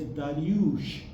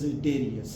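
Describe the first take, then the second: First: The name ends with an 'sh' sound. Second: The name ends with an 's' sound. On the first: This is the original Persian form of the name. "properly can be pronounced as Dariush" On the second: This is the usual English form of the name. "in English we are generally pronouncing it"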